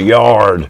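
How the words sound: The R sound is clearly pronounced. "Californians will call yard with a hard R"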